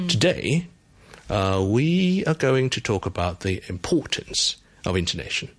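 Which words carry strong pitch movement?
Today, intonation. Today and intonation both get pitch jumps. "譬如我俾多啲重要嘅起伏喺呢一句字得嘅"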